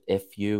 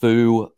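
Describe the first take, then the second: First: It is said as two letters, F U. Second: It is said as one word, foo. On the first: This is how others like to say it. "is how other people enjoy pronouncing it" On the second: This is the creator's own pronunciation. "is how I pronounce it"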